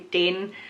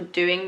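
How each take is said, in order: First: The first vowel sounds like 'ay'. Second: The first vowel sounds like 'oo'. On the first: "do and to would be day and tay" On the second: "So doing would be"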